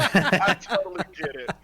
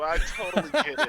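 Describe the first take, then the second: First: Louder laughing repeat; laughing harder. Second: Laughing through the words. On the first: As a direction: say it again, cracking up more. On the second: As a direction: chuckle as you say it. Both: Real, not acted. Laughing while teasing.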